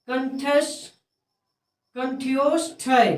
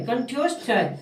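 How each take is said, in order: First: कंठ्योष्ठय drawn out syllable by syllable; slow sounding-out. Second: Said in the usual way. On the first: Shown as a demonstration. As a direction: sound out कंठ्योष्ठय slowly in pieces. Teacher sounds out a hard term.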